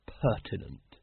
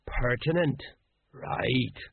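First: "pertinent" said low, trailing down unsurely; "pertinent" offered low, as a vague guess; hesitant. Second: "Pertinent" repeated slowly and sagely; "Pertinent" savoured with a wise air. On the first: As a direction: land tentatively on "pertinent". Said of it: "Vimes hesitated. He wasn't exactly sure". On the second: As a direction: echo "Pertinent" as if you understood it. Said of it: "the sergeant nodded wisely". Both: A narrator's reading.

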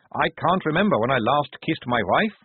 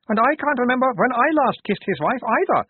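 First: Moderately raised guard's voice; first guard lamenting. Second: High, loud character voice; second guard chiming in. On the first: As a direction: grumble in character, a little high. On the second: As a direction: pipe up high with a comic echo. Other guard chimes in, comic echo. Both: A narrator's reading.

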